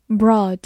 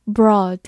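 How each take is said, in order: Both takes have the same delivery.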